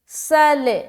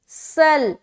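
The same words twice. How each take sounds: First: The final L is released with a slight bounce. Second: The final L stops abruptly with no release. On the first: The speaker calls it wrong. "लाम में आवाज चिमट नहीं रही बल्कि वापस लौटती हुई मालूम हो रही है" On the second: The speaker calls it right. "लाम में आवाज बिल्कुल चिमट जाएगी"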